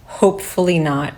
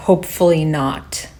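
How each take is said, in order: First: Imitated reply after a small laugh; chuckle, then drop the line lightly; chuckled reply. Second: Said in the usual way. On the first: Other officer answering the joke, imitated with a chuckle. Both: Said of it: "the other guy said".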